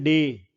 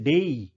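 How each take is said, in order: First: डे with one pure vowel, no glide; Indian pronunciation of day. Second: डे as a diphthong, e gliding into i; British pronunciation of day. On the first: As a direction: say डे the Indian way, as a single steady e. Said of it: "अब हम बोलते हैं". (डे में सीधा ए, बिना ई के) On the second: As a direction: let डे glide out to "dey-ee". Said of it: "native Britishers जो होते हैं वो इसको बोलते हैं". (डे को डेई जैसा, ए से ई तक) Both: Shown as a demonstration.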